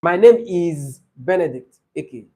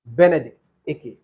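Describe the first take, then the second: First: Slow and deliberate self-introduction; slow, names separated. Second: Name run together as one; quick, run together. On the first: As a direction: space out each name so it can be counted. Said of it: "please say them slowly". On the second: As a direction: say both names in one quick go. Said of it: "if you're fast, it might appear like one name". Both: Shown as a demonstration.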